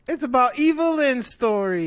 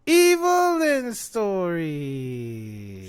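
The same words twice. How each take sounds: First: High, loud, sarcastic reveal; mocking announcement. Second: Long, stretched wail sliding down; mocking drawn-out repeat. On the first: Fan revealing who the show is about, mocking. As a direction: raise it up in scornful fanfare. Mocking the show's real focus. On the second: Fan repeating it over friend's objection, drawn-out mockery. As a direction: drag out every syllable, letting it fall away. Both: Real, not acted.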